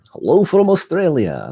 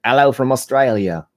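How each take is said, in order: First: A high, failed try at an Australian accent; mock Australian greeting; Australian accent attempt. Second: A closer go at an Australian accent; mock Australian greeting, retake; second Australian accent try. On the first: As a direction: say hello the Aussie way, badly. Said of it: "That was not Australian accent at all". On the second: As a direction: try the Aussie hello again, more careful. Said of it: "maybe that's closer". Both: Shown as a demonstration.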